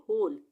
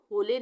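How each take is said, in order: First: होल as one syllable ending on l; silent final e. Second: होले said in two syllables, ending in "lay"; wrong pronunciation. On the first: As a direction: close होल on the l, no vowel after. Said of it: "हम पढ़ेंगे होल". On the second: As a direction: sound the final e in होले. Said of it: "हम होले नहीं पढ़ेंगे इसको". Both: Shown as a demonstration.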